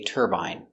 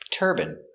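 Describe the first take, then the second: First: The last syllable rhymes with 'line'. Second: The last syllable is a short 'in' sound. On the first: This is the usual English pronunciation. "but in England, they say turbine" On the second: This is the usual American pronunciation. "In America, it's more common to hear turban"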